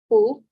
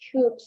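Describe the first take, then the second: First: An L sound is pronounced before the D. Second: No L sound; the vowel goes straight to D. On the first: The speaker calls it wrong. "my students sometimes they pronounce the letter L" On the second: The speaker calls it right. "I'm pronouncing directly the letter D"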